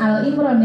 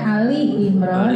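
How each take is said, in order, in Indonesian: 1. Bagian pertama adalah satu suku kata, al. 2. Bagian pertama adalah dua suku kata, a-li. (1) "bukan Al Imran ya"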